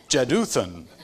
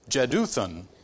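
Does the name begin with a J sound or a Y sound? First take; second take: J sound; J sound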